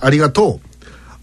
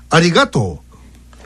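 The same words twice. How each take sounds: First: Osaka-dialect pitch accent, exaggerated. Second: Nagoya-dialect pitch accent pattern. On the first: "これが大阪弁だとありがとう、極端にやってますよね" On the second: "名古屋弁だとありがとう"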